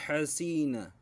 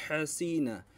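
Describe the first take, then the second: No difference in how they are said.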